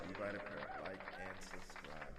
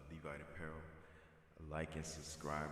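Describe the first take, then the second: First: It is said in a normal voice. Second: It is said in a very deep voice.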